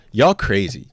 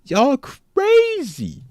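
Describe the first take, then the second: First: Said in the usual way. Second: Y'all crazy stretched out, high and very slow; mock disbelief. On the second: Real, not acted. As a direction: drawl crazy out long in a high voice. Repeats phrase stretched high.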